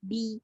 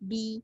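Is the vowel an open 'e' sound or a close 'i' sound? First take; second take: close i; close i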